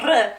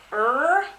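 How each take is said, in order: First: "r" rolled like a Spanish R, louder; punchy rolled "r", not American. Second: American "er", held in the throat; long, untrilled American "er". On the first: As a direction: trill the "r" Spanish-style. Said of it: "not like a Spanish R". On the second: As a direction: draw out "er" with an American R. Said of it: "the American R". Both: Shown as a demonstration.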